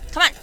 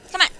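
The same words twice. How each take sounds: The two takes are said the same way.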